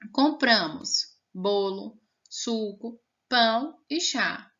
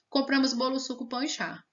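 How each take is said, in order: First: Short pauses separate the listed items. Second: The items run together with no pauses. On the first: The speaker calls it right. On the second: The speaker calls it wrong.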